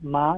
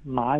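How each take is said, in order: First: The pitch rises from middle to high. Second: The pitch dips low and then rises. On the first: "ma is the second tone" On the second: "ma is the third tone"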